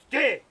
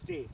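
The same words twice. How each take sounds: First: The word is said loudly, in a raised voice. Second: The word is said at normal volume. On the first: The dog has done something wrong and must stop. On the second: The dog is doing fine.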